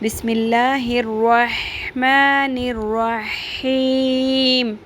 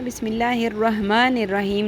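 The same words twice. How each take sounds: First: The h sound is a clear, throaty h. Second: The h sound is a plain, light h. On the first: The speaker calls it right. "हा की आवाज़ क्लियर करें" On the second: The speaker calls it wrong. "ये हा नहीं है। ... नहीं पढ़ना"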